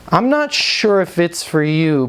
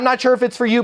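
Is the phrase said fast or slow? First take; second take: slow; fast. First: It is said slowly and sincerely. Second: It is said quickly and pushily. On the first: The speaker is genuinely unsure it suits the listener. The speaker calls it right. "Now notice how I said that. Listen to my tonality" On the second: The speaker is just pushing a sale. The speaker calls it wrong. "I wasn't"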